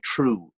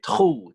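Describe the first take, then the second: First: The vowel is made in the usual forward position. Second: The vowel is pulled to the back of the mouth. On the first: "instead of saying" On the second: "all the or sounds go to the back of the mouth"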